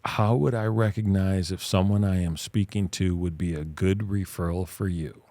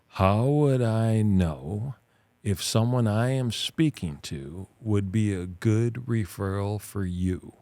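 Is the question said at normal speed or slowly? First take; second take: normal speed; slowly. First: It is said at normal speed. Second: It is said slowly.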